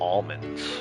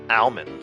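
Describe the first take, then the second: First: The L sound is strong, like a double L. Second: The L sound is light or barely heard. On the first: "As if there's a second L there" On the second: "if you pronounce it phonetically"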